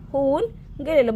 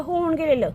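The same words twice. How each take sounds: First: होऊन and गेलेलं split apart by a clear pause; teacher stresses गेलेलं for pupils, pausing after होऊन; spelled out with a pause. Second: Said in the usual way. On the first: Shown as a demonstration.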